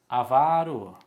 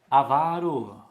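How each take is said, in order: The two takes are said the same way.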